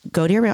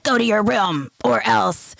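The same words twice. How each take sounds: First: Put-on calm, matter-of-fact instruction to a child; calm parent. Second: Slow, higher-pitched mock parental threat; stern threat. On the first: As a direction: send the child off without any threat. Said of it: "when I am calm". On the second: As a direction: play the threatening parent, drawing each word out. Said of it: "I never do it like".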